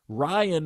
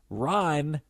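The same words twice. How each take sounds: First: The name is said in two syllables. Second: The name is said in one syllable. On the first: The speaker calls it wrong. "Ryan has two syllables" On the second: The speaker calls it right. "Ryan has one"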